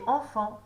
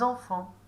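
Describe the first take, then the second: First: The word starts directly on its vowel. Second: The word starts with a z sound. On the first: The speaker calls it right. "le mot c'est enfant" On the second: The speaker calls it wrong. "pas enfant"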